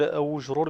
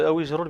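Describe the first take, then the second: First: The linking vowel after aw is u. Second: The linking vowel after aw is i. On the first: "بضمها" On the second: "بكسر الواو"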